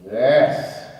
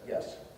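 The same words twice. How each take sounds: First: It is said with great enthusiasm. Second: It is said plainly, without enthusiasm.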